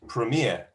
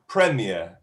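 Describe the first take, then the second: First: It is said with the American English stress pattern. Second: It is said with the British English stress pattern. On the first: "American English" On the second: "British English"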